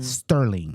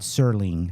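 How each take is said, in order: First: The name has a 't' sound after 's'. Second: The name has no 't' sound after 's'. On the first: The speaker calls it wrong. "not Sterling ... That is not correct" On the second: The speaker calls it right. "Mister Rod Serling"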